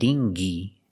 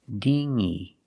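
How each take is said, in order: First: A hard g sound follows the ng sound. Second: Only a nasal ng sound, no hard g. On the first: The speaker calls it wrong. "we don't pronounce the g. It's not dingy, g" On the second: The speaker calls it right. "Using the sound in your nose"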